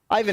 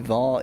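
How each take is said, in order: First: The name begins with an 'eye' sound. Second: The name begins with an 'ee' sound. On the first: The speaker calls it wrong. "Ivan isn't even the correct pronunciation" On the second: The speaker calls it right. "Isn't it more like e- e- e- e- Ivan"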